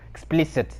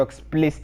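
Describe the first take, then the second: First: EXPLICIT with all three syllables, "ex-pliss-it"; quiet self-correction, EXPLICIT said in full; corrected EXPLICIT. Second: EXPLICIT run together as "explist"; slurred EXPLICIT. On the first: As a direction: sound out the middle of EXPLICIT, softly. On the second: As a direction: swallow the middle vowel of EXPLICIT. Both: Real, not acted.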